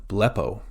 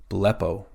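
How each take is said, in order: Both takes have the same delivery.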